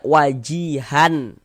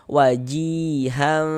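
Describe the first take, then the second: First: The final n is pronounced clearly and distinctly. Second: The final n is muffled and held nasally. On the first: The speaker calls it wrong. "wajihan gitu jelas itu jangan" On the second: The speaker calls it right. "tapi disamarkan. Wajihan, wajihan seperti itu"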